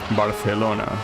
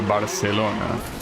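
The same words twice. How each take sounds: First: The c is said like a th sound. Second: The c is said like an s sound. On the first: This is how people in Spain say it. "That C is pronounced with... like with your tongue uh, hitting the, the your teeth" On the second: This is how Latin American speakers say it. "if you should speak like any Latin American Spanish here, you will pronounce it like that"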